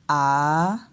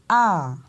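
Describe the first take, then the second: First: The pitch falls and then rises. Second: The pitch rises and then falls. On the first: "on descend et après on monte" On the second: "on monte, on descend"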